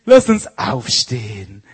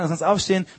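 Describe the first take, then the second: First: It is said in a sugary, talking-down voice. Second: It is said in a plain, normal voice.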